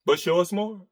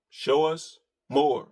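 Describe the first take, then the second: First: Said in the usual way. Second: Softer, slower repeat through a chuckle; slow, laughing. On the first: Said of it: "repeated with a laugh". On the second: Shown as a demonstration. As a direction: tease it out with a laugh. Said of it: "repeated after plain take".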